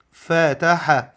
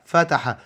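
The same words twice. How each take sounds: First: فتح split into three slow beats, each letter alone; syllable by syllable. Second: Said in the usual way. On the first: Shown as a demonstration. Teacher sounding out فتح to young pupils, syllable by syllable. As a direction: spell فتح out letter by letter, drawn way out. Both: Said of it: "لما نيجي نحللها".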